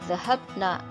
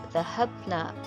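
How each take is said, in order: Both takes have the same delivery.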